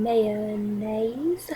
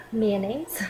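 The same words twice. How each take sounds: First: Mayonnaise as "MAY-uh-naze", rising; mayonnaise, full three syllables; first mayonnaise. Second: Mayonnaise squeezed to "MAN-ez"; Southern two-syllable mayonnaise; second mayonnaise. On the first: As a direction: say "mayonnaise" in three clear beats. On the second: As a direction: say "mayonnaise" clipped to two beats. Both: Shown as a demonstration.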